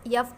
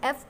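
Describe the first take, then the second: First: It begins with a y glide before the vowel. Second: It begins directly with the vowel sound.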